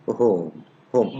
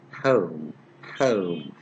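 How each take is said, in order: First: Said in the usual way. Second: "home" with a gliding ow vowel, like "howm"; exact pronunciation. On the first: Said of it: "wrongly pronounced words". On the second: Shown as a demonstration. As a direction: stretch "home" from an open vowel towards oo. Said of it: "So the exact pronunciation is".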